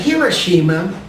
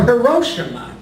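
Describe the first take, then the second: First: Hiroshima with "shi" clearly sounded as SHEE-ma; four-syllable pronunciation. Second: Hiroshima with stress on "ro", huh-ROH-shuh-muh; alternative pronunciation. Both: Shown as a demonstration. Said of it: "Is it Hiroshima or".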